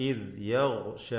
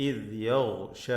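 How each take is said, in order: The two takes are said the same way.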